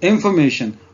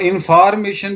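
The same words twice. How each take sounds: First: The 'o' vowel is kept short. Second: The 'o' vowel is drawn out long. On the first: The speaker calls it right. "ये ओ जो है इसकी short sound होगी यहाँ पे" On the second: The speaker calls it wrong. "इंफॉर्मेशन भी नहीं कहना, इसे आपने लंबा नहीं करना"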